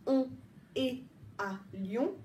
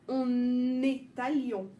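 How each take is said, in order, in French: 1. Le n ne se reporte pas sur la voyelle suivante. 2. Le son n se lie bien à la voyelle suivante. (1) "On ne dit pas" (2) "Je vais exagérer"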